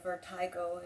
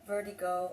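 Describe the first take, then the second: First: The word has a British pronunciation. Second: The word has a non-British pronunciation.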